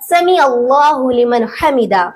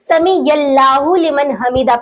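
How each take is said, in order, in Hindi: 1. गले से निकलने वाली 'ain' ध्वनि 'sami' को 'Allahu' से जोड़ती है। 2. 'ya' जैसी आवाज़ 'sami' को 'Allahu' से जोड़ती है। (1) "सही तरीका है" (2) "आइन के जगह पर या लगा देते हैं, तो यह गलत हो जाएगा"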